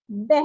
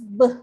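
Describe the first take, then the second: First: The letter is said the Indonesian way. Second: The letter is said the Malay way. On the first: The speaker calls it wrong. "like in Indonesia, you pronounce it as a beh" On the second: The speaker calls it right. "So in bahasa Melayu is B"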